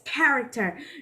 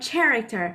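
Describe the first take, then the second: First: The word begins with a k sound. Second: The word begins with a ch sound. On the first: The speaker calls it right. "the ch part is not spelled as ch, it's k" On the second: The speaker calls it wrong. "not character"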